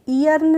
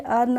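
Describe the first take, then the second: First: The word starts with an extra ee sound. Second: The word starts directly with an er sound. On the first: The speaker calls it wrong. "ई अर्न नहीं पढ़ेंगे" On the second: The speaker calls it right. "इसको पढ़ेंगे अर्न"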